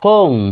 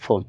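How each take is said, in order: First: The vowel is a long o sound. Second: The vowel is a short o sound. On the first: The speaker calls it right. "ওই উচ্চারণটা কি হবে ও হবে" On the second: The speaker calls it wrong. "নট"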